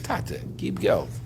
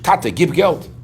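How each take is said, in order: First: The request sounds gentle and pleading. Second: The request sounds rude and demanding. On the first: The child is humbly asking his father. The speaker calls it right. "You have to read it like this" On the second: The child is brazenly ordering his father. The speaker calls it wrong. "Father chutzpah"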